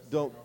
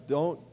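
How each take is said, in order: Both takes have the same delivery.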